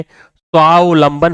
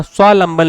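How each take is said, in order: First: स्वावलंबन said slowly "swaa-v-lamban"; correct full form. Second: स्वावलंबन said "swalamban", middle "av" missing; wrong, shortened form. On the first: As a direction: draw out स्वावलंबन with its middle v sounded. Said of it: "स्वावलंबन होता है". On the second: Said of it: "यहाँ स्वावलंबन लिखा है". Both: Shown as a demonstration.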